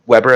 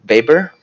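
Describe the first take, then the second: First: "Weber" said the English way, with a W sound like "WEB-er"; English pronunciation. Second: "Weber" said the German way, starting with a V sound like "Veber"; German pronunciation. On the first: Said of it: "if you don't wanna be German". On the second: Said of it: "I think he's a German guy". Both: Shown as a demonstration.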